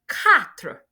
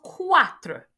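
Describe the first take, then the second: First: The word begins with a plain k sound. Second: The word does not begin with plain k. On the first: The speaker calls it right. "after your cat is quatre" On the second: The speaker calls it wrong. "not quatre"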